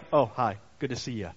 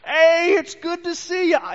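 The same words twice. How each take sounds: First: Casual, unexcited hello in a passing tone; offhand greeting. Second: Much higher, louder, overjoyed hello; excited greeting. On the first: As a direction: toss off a bored little hello. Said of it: "he's not just gonna be like". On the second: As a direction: greet him like a long-lost friend. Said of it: "He's gonna be like". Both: Retold or imitated.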